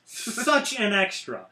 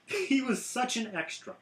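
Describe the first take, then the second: First: "Such an extra" said slowly with weight on each word; slow emphatic repeat. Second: Said in the usual way. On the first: Real, not acted. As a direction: lean into "Such an extra" to savour the mockery.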